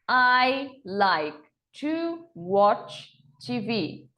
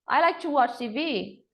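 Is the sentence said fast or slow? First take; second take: slow; fast. First: The sentence is spoken very slowly. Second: The sentence is spoken a bit faster. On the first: "bem devagar" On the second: "Agora um pouco mais rápido"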